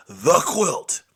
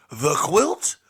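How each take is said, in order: First: QUILT falling, firm and final; ominous confirmation. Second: QUILT rising as a question; questioning echo. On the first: Storyteller confirming the dreaded quilt, firm falling statement. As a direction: answer loudly with a falling QUILT. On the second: Storyteller echoing the dreaded quilt, rising question. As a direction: repeat it louder, lifting QUILT at the end. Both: Shown as a demonstration. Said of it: "not saying it with such flowery remembrance".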